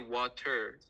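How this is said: It is said in a non-American way. "Americans don't say water"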